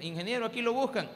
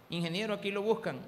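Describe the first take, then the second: First: "Ingeniero, aquí lo buscan" higher and louder, pressing; insistent receptionist. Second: Plain first call of "Ingeniero, aquí lo buscan"; receptionist calling. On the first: Receptionist calls the engineer a second time, insistent and louder. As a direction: call "Ingeniero, aquí lo buscan" again, more urgently. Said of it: "allá como los veinte minutos". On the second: Receptionist tells engineer he has a visitor, matter-of-fact. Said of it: "repeated call, second more insistent". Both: Retold or imitated.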